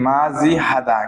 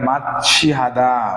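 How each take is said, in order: First: The consonant after ma is a j sound. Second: The consonant after ma is a ch sound. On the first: The speaker calls it wrong. "এটার উচ্চারণ হওয়ার কথা ছিল কি মাজি হাদা" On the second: The speaker calls it right. "ছয় ছয় যুক্ত হবে"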